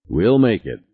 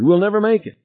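First: Firm, level reply; steady reassurance. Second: Very high, panicky wail; panicking. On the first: Pilot answers his panicking passenger, steady and firm. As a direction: contradict the panic with calm certainty. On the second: Passenger to pilot as time runs out, high and panicky. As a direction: despair in a high frantic voice. Harry despairs before the explosion. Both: A narrator's reading.

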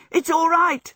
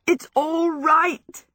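First: High, loud, elated cry; joyful shout. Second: High, loud and stretched with glee; drawn-out joyful shout. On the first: Michael dances Sophie round the room, shouting joyfully. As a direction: burst out with happy news. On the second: Michael whirls Sophie round, long joyful shout. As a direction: repeat the good news, drawing it right out. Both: A narrator's reading. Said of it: "he shouted joyfully".

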